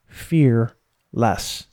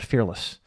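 First: It is said as two separate words, fear less. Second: It is said smoothly as one single word. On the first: Having less fear, though still some. "my theory about courage is that it's two words" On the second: Being without any fear. "Many of you heard me say one word"

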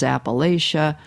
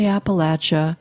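First: It uses the more northern pronunciation of the name. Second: It uses the southern Appalachian pronunciation of the name. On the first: This is how most people farther north say it. "most everyone else here in my region says Appalachia" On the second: This is how most people in southern Appalachia say it. "You say Appalachia"

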